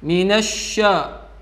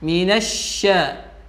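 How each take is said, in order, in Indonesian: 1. Bunyi 'sya' diucapkan dengan bibir dimonyongkan dan membulat. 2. Bunyi 'sya' diucapkan dengan bibir rileks dan tidak membulat. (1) "mengucapkannya dengan memonyongkan bibirnya ... itu adalah contoh yang salah" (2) "Biasa saja"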